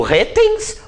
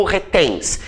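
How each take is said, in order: First: "retens" with the weight wrongly on RE; stress on first syllable. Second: "retens" with the weight on TENS; stress on last syllable. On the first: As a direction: punch RE in "retens", letting tens drop. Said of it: "Como é que eu a pronuncio?". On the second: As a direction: punch TENS in "retens", keeping re light. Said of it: "a sílaba tônica é o tens". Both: Shown as a demonstration.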